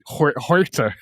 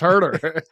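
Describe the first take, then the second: First: The name is said with a Spanish-style vowel. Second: The name is said with a plain English vowel. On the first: Someone got the pronunciation of the name wrong. The speaker calls it wrong. "Saying it like it's Spanish" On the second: This is the name's real pronunciation. The speaker calls it right. "It's it's herder"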